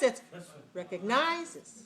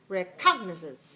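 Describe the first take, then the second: First: The stress is on the third syllable. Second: The stress is on the second syllable. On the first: "If it's like this" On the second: "If it's this way"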